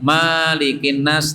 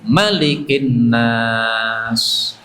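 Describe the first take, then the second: First: The first vowel is held long. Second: The first vowel is kept short. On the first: The speaker calls it wrong. "tidak boleh, salah" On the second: The speaker calls it right. "dibaca pendek"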